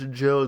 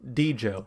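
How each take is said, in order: First: The name begins without a D sound. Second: The name begins with a D sound. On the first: "the D is silent" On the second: "There's very clearly a D there"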